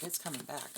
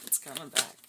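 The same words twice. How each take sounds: First: Said in the usual way. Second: Coming back hit loud and firm; a louder warning repeat; louder emphatic repeat. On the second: Real, not acted. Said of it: "repeated louder".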